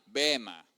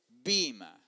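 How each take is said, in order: First: The first vowel is pronounced as 'e'. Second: The first vowel is a stressed 'i'.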